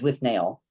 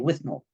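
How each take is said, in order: First: The last syllable sounds like 'nail'. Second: The last syllable sounds like 'null'. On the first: It is read from the written title. "I always thought, looking at the title, it was with Nail" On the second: It is said as in the film. "in the movie they say with Null"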